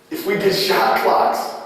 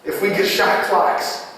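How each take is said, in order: Both takes have the same delivery.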